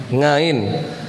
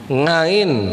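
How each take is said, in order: Both takes have the same delivery.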